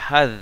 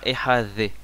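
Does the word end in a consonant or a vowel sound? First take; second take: consonant; vowel. First: The word ends on a consonant, no extra syllable. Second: The word ends with an added extra vowel syllable. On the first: The speaker calls it right. "on n'entend pas une syllabe supplémentaire" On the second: The speaker calls it wrong. "c'est pas ehadhe"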